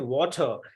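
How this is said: The word is said in a British accent. "some British person, so that person will say water"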